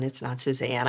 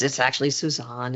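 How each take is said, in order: First: "Suzanne" with a short flat a, as in "pan"; wrong name pronunciation. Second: "Suzanne" ending in an open "ahn"; New Orleans pronunciation. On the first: Reporter showing the wrong name, "Suzanne" said soo-ZAN. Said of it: "He always called me Suzanne". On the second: Reporter correcting her name for press people, "Suzanne" said soo-ZAHN. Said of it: "I'm New Orleans roots". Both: Shown as a demonstration.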